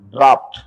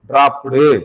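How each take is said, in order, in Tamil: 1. வார்த்தை கடைசி t-யில் கூர்மையாக முடிகிறது. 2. கடைசி t-க்குப் பிறகு கூடுதலாக u என்ற உயிர் ஒலி சேர்க்கப்படுகிறது. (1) "டிராப் பக்கத்துல ஒரு இட்டு சேர்த்துக்கங்க" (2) "ஒரு ஊ சவுண்ட் எக்ஸ்ட்ரா நம்மளா சேர்த்துக்கிறோம்"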